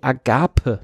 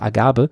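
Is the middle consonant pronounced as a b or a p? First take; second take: p; b. First: The middle consonant is a crisp p sound. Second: The middle consonant is a soft b sound. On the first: "Agape mit P" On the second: "fränkisch angehaucht und sagen halt alle Agabe"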